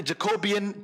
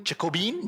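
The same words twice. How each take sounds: First: Jacobean as four syllables, ja-KOH-bee-un; trial pronunciation. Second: Jacobean as three syllables, ending in "been"; alternative pronunciation. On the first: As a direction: sound out Jacobean with a separate "un" ending. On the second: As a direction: try Jacobean with the last vowels merged into one "ee". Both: Real, not acted. Trying out ways to say word.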